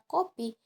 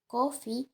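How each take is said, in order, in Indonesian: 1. Konsonan tengah adalah P keras. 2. Konsonan tengah terdengar seperti F. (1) "dalam bahasa Indonesia, kata kopi diucapkan dengan bunyi P yang keras" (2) "bunyi P diucapkan dengan lebih lembut seperti bunyi F"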